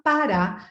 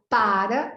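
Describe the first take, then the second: First: PARÁ with the stress on RÁ; stress on last syllable. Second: PARA with the stress on PA; stress on first syllable. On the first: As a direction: say pa-RÁ, final syllable strong. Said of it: "última sílaba que é forte". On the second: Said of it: "é uma paroxítona". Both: Shown as a demonstration.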